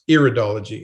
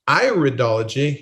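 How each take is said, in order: First: The first syllable sounds like 'ear'. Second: The first syllable sounds like 'eye'. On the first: The speaker calls it wrong. "not iridology ... not the ear" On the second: The speaker calls it right. "it's pronounced iridology ... it's the study of the eye"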